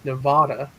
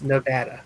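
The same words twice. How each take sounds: First: The A sound is long. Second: The A sound is short. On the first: This names the mountain range. "with the longer A sound at the end" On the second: This is how locals name the state. "anyone who who lives in Las Vegas, they say it's Nevada"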